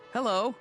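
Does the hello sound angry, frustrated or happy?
happy. It is said in a happy tone.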